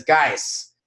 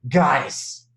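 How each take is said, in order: First: Said in the usual way. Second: Melody voice. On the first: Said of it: "I'm gonna do this in my best Melody voice". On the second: Retold or imitated. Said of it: "in my best Melody voice".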